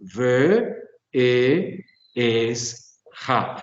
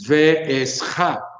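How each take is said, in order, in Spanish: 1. Las dos vocales contiguas se mantienen separadas. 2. Las dos vocales contiguas se funden en una. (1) "Es un ve, e, es ja" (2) "hiciéramos como una asimilación y decir ve es ja, y en cambio no lo es"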